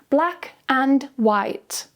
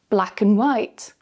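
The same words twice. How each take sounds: First: Said slowly, and is full with a clear d. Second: Said quickly, and shrinks to a weak un. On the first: "slowly with the strong form" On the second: "quickly with the weak form"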